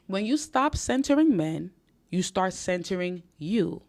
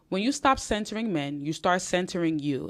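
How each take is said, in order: First: It is spoken at a slower pace. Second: It is spoken at a fast pace. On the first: "I'll say it slower" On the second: "I know I speak fast"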